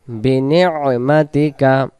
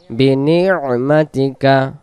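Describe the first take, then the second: No difference in how they are said.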